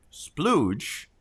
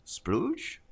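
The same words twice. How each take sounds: First: Said in the usual way. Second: High questioning rise on splooge, softer; as if checking the word is acceptable; unsure asking. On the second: Real, not acted.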